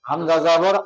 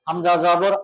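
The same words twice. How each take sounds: Both takes have the same delivery.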